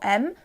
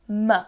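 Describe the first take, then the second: First: The m sound is said alone with no vowel. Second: The m sound is followed by a short uh vowel. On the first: The speaker calls it right. "instead of saying m for M" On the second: The speaker calls it wrong. "which is incorrect"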